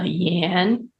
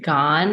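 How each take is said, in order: First: The name begins with a y sound. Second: The name begins with a hard g sound. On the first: This is the Mandarin form. "but in Mandarin, it's" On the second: This is the Malaysian dialect form from Fujian. "In Malaysia, it's pronounced like"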